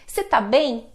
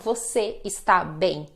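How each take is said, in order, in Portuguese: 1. O verbo é encurtado para uma sílaba só, tá. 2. O verbo é dito por extenso como está. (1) "eles falam assim" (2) "Eles não falam você está bem"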